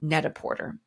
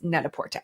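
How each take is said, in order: First: The final R sound is pronounced hard. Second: The final R sound is not pronounced. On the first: "with a hard R" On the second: "but it's net-a-porter"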